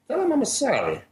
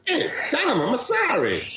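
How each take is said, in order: First: High-pitched Italian father voice; imitated Italian dad, strained high; Italian accent. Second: High, insistent Italian father, hammed up; pestering Italian dad, pitched way up; aggressive Italian accent. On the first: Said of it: "I'll have to do the accent. He was very Italian". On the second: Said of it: "This time, it's a little more aggressive".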